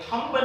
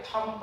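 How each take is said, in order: First: थंब said as "thumba", with the b pronounced; थंब with an audible b and a slight rise; wrong b sounded. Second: थंब said as "thum", with the b silent; थंब as "thum", no b, falling; correct silent b. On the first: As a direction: sound the b in थंब, the way it should not be said. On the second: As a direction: drop the b and end on the m in थंब. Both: Shown as a demonstration. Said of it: "थंब नहीं पढ़ेंगे".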